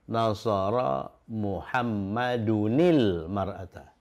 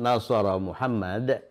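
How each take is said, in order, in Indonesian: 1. Namanya tersambung ke depan dengan akhiran -unil. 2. Namanya berhenti tanpa akhiran sebelum jeda. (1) "Kalau mau disambungkan" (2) "wakafkan saja di sini"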